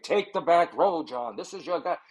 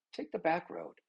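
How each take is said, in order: First: Spirit guide voice. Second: Very soft, like a passing thought; quiet inner voice. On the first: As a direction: announce it like a mock spirit guide. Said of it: "not like a guide". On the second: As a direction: barely voice the intuition's nudge. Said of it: "It's just a whisper". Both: Acted.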